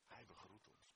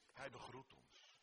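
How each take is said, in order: First: Much softer echo of the line; softly repeated. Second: Said in the usual way. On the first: Shown as a demonstration. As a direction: drop to a hush the second time. (zacht herhaald)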